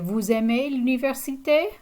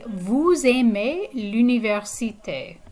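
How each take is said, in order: First: The voice goes up at the end. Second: The voice stays level or falls at the end. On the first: It asks whether you like the university. "I can just make my voice go up at the end" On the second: It is a plain statement that you like the university. "you like the university"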